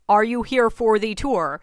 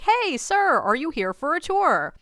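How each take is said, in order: First: THE said as "thee", slow and louder; stress on THE. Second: High, bright hail to a stranger; calling out. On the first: Tour guide clarifying for a stranger, stress on THE. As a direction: spell it out slowly, leaning on THE. Correcting his answer, pointed repeat. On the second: Tour guide hailing a man standing nearby, calling out. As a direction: call out politely, pitched up. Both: Retold or imitated.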